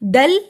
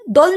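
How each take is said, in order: First: The syllable is light and thin. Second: The syllable is heavy and thick. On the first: The speaker calls it right. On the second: The speaker calls it wrong.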